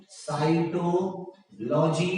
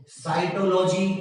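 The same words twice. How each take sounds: First: cytology very slowly, with a gap before logy; drawn out. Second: Said in the usual way. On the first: Shown as a demonstration. Teacher repeating option C for students, drawn out. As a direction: split cytology into slow separated parts.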